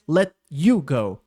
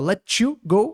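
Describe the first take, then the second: First: The t and y stay as separate sounds. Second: The t and y merge into a ch sound. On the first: "outros falam mais" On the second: "com chiado assim"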